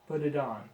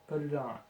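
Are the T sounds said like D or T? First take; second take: D; D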